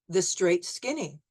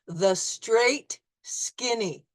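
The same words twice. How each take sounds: First: It is said smoothly at normal speed. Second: It is said slowly, syllable by syllable. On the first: "at regular speed" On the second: "you'll hear it in slow motion syllables"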